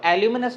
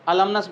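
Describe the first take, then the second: First: It has a 'yoo' sound after the L. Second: It has no 'yoo' sound after the L. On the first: The speaker calls it wrong. "इसको एल्यूमिनस नहीं" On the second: The speaker calls it right. "अलमनस बोलते हैं ना"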